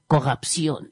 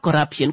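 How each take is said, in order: First: It is said in a French accent. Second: It is said in a plain English accent.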